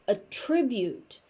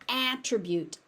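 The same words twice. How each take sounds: First: The first vowel is a relaxed 'uh' sound. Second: The first vowel is a tense 'ah' sound. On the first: It is used as a verb. "As a verb, it's attribute. So it goes from ah to uh" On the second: It is used as a noun. "as a noun, it's an attribute, ah, a tense ah sound"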